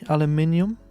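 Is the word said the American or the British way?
British. It is said with five syllables, British style. The speaker calls it right. "it's got an I right there"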